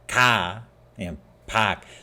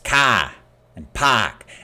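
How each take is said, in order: First: The ah vowel is plain and soft. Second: The ah vowel is loud and strong. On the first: "It's not car and park" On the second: "in Boston, it's not car. It's car and park, and it's often a, lar- a much louder sound"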